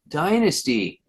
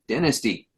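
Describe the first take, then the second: First: It is said the American way. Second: It is said the British way.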